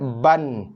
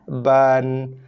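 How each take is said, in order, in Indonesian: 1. Vokalnya diucapkan sangat pendek dan tergesa-gesa. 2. Vokalnya berlangsung satu ketukan sedang. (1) "Tak boleh cepat sangat" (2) "ngam-ngam satu harakat"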